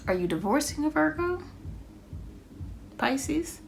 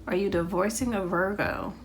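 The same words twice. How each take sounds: First: High, rising surprised ask; high, curious question with a rise at the end. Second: Said in the usual way. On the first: Real, not acted. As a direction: blurt it out as a sudden hunch, pitch jumping high. Reader blurts a sudden guess.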